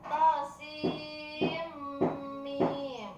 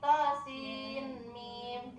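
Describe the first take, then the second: First: The n sound merges into the following m. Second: The n sound is kept before the m. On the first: The speaker calls it right. "dibaca tosim mim itu benar" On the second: The speaker calls it wrong. "Nggak boleh lagi tosin mim, tidak"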